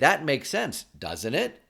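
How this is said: The tag is said like a real question. It asks for agreement and comes across as manipulative. The speaker calls it wrong. "I didn't say"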